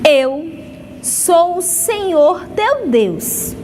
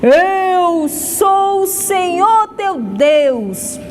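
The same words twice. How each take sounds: First: It is said in an ordinary speaking voice. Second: It is said in a loud, booming thunderous voice.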